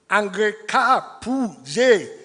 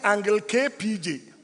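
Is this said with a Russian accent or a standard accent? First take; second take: Russian; standard. First: It is said with a Russian-sounding accent. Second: It is said with a standard, unaccented pronunciation. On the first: A foreign teacher said it this way. The speaker calls it wrong. "such funny pronunciations as" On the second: This is what the teacher meant. The speaker calls it right.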